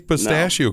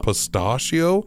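First: The word is said in an ordinary way. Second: The word is said in a put-on fancy way. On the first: The speaker calls it right. "he can't even say pistachio correctly" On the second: The speaker calls it wrong. "He says pistachio"

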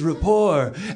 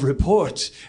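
First: It has a French pronunciation with a silent t. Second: It has the usual English pronunciation with a t.

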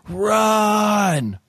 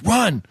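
First: It is yelled long and loud. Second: It is said short and quick.

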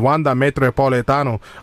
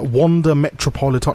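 First: It is said in a put-on South American accent. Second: It is said in the speaker's plain accent.

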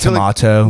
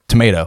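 First: The word is said in a British-style accent. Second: The word is said in an American accent. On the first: This is how other English speakers say it. "we don't, like, say tomato" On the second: This is how Americans say it. "we say, like, tomato"

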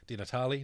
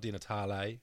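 First: The final E is said plainly, without an accent. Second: The final E is said like an accented 'ay'. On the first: This is the name's true pronunciation. The speaker calls it right. "my name is" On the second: This is how someone else mispronounced the name. The speaker calls it wrong.

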